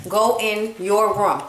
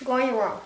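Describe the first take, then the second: First: Drawn-out command, each word spaced; slow, firm parental order. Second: Quiet parental order. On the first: Parent repeating an order to child, slow and firm. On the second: Parent ordering child out of the review, quietly firm. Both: Real, not acted.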